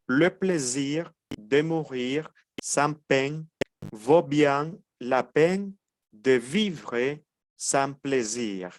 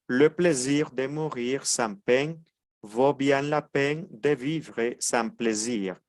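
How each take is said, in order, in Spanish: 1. La frase se dice más despacio. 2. La frase se dice más rápido.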